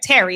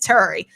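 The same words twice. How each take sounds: First: It is said in a New Jersey accent. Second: It is said in a Baltimore accent. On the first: The speaker calls it wrong. "why everybody from Jersey, New York say" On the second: The speaker calls it right. "It's Terry"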